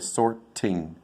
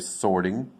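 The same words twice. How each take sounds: First: The T is a clear, crisp T. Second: The T is a soft D-like flap. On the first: The speaker calls it wrong. "I won't say sorting" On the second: The speaker calls it right. "which is a, a soft T"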